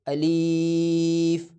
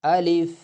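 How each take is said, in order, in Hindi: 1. स्वर को बहुत ज़्यादा लंबा खींचा जा रहा है। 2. स्वर को सिर्फ़ थोड़ी देर के लिए रोका जाता है। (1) "इस तरह के नहीं खींचना चाहिए, ये पढ़ना गलत है" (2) "इस तरह पढ़े अलिफ अलिफ"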